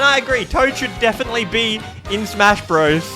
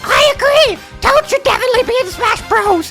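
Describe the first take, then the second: First: It is said in his normal voice. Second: It is said in a put-on Toad voice.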